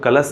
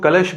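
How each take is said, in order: First: The word ends with an 's' sound. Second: The word ends with an 'sh' sound. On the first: The speaker calls it wrong. "कलश को कलश नहीं बोल सकते" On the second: The speaker calls it right. "हम कलश को कलश बोलें तो ठीक है"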